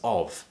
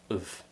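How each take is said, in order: First: The word has a full, clear vowel. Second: The word has a reduced, weak vowel. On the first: The speaker calls it wrong. "isn't pronounced as of" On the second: The speaker calls it right. "it's usually pronounced as of"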